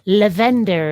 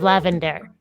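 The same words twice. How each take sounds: First: The name is said with a Scandinavian-sounding pronunciation. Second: The name is said with an ordinary English pronunciation. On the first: "every now and then I want to pronounce your screen name as Lavender" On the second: "instead of Lavender"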